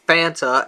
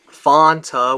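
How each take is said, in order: First: The first vowel sounds like the letter A. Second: The first vowel sounds like the letter O. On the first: "pronounced like it's spelled" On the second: "which Fanta I tell him is spelled with an O"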